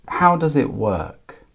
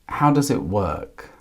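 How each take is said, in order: The two takes are said the same way.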